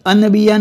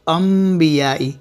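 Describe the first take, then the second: First: अनबिया with a clear n; wrong n. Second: Slow अंबियाई with an m; m sound. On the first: Quran teacher shows students the wrong reading. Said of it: "नहीं". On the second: Quran teacher gives students the correct reading. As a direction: slowly say अंबियाई as ambiyaai. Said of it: "अन नहीं पढ़ेंगे". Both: Shown as a demonstration.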